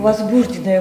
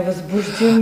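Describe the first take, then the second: First: "возбужденное" stressed on БУЖ; stress variant. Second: "возбуждено" stressed on the final НО; stress variant. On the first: Interviewer offers a professional variant, stress on БУЖ in "возбужденное". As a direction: put the stress on the second syllable of "возбужденное". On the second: Interviewer offers the contrasting variant, final НО stressed in "возбуждено". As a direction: put the stress on the last syllable of "возбуждено". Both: Shown as a demonstration.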